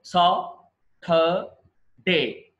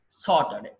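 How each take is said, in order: First: Saturday stretched very slowly into sa, tur, day; slow syllable demo. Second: Said in the usual way. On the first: Shown as a demonstration. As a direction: spell out Saturday in slow beats. (నెమ్మదిగా అక్షరాలుగా) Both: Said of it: "ఇది చూడండి".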